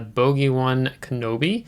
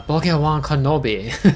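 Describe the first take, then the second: First: It is said in the speaker's ordinary accent. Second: It is said in a put-on Asian English accent.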